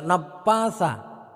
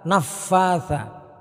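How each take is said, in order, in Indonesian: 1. Konsonan di tengah terdengar seperti p, tanpa hembusan udara. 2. Konsonan di tengah adalah f, dengan udara yang keluar. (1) "Jangan sampai membaca napatha" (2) "Ketika membaca fa itu harus betul-betul anginnya keluar"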